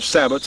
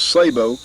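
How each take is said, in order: First: The word is said with an English pronunciation. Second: The word is said with a French pronunciation. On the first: This is how many people say it. "a lot of people call them sabots" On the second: This is the original pronunciation. "the actual French pronunciation was sabot"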